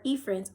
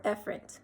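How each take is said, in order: First: "efferent" with a long first vowel, EE-ferent; long-e pronunciation. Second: "efferent" with a short first vowel, EH-ferent; short-e pronunciation. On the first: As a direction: say "efferent" starting with "ee". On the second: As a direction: say "efferent" starting with "eh". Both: Shown as a demonstration. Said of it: "efferent or efferent".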